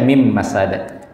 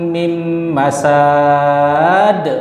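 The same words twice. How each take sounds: First: The ending stops short on the consonant. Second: The ending is drawn out long. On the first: The speaker calls it right. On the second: The speaker calls it wrong. "Tapi dikasih panjang"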